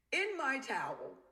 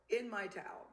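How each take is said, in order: First: "In my towel" slow and higher, stressed on "my"; indignant emphasis. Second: Said in the usual way. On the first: Real, not acted. Telling friends about the affair, slow outraged "In my towel".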